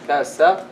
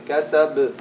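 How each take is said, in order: Both takes have the same delivery.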